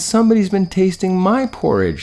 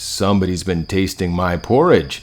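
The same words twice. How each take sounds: First: It is said in a high, squealing little voice. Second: It is said in a big, deep, growling voice. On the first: "squealed the Baby Bear" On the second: "growled Father Bear in his big, big voice"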